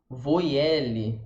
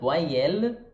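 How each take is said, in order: First: The word is said with Portuguese sounds. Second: The word is said with French sounds. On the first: The speaker calls it wrong. "E não ler, por exemplo" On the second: The speaker calls it right. "não são os sons que a gente falaria no português"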